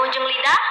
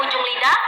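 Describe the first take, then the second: The two takes are said the same way.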